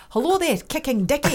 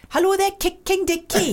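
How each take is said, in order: First: Playful put-on Scottish phone greeting; Scottish accent. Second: Higher, playful Welsh phone greeting; Welsh accent. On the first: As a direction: answer the phone as a Scot. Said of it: "What about Scottish accent". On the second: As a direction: answer the phone in put-on Welsh. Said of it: "Try Welsh". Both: Shown as a demonstration.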